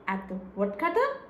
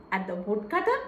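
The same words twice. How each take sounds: The two takes are said the same way.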